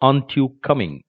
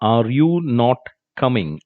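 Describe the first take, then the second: First: 'Are not' is squeezed into one syllable, 'aant'. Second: 'Are' and 'not' are said as separate words. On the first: "അതിൻ്റെ pronunciation ആൻറ്റ്" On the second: "ആർ യു നോട്ട് എന്നതിൻ്റെ short form"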